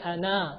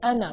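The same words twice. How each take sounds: First: The final vowel is drawn out long. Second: The final vowel is short. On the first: The speaker calls it wrong. "We don't say ana" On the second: The speaker calls it right. "we pronounce it ana"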